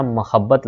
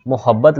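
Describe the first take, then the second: First: मोहब्बत with short a in the first syllable, ma-habbat; correct pronunciation demo. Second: मोहब्बत with o in the first syllable, mo-habbat; wrong pronunciation demo. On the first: Teacher correcting the word, demo of मोहब्बत as ma-habbat. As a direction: say मोहब्बत opening on ma-. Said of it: "मोहब्बत लफ्ज़ होता है". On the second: Teacher citing the mistaken form, demo of मोहब्बत as mo-habbat. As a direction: say मोहब्बत opening on mo-. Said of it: "मोहब्बत लफ्ज़ नहीं होता". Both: Shown as a demonstration.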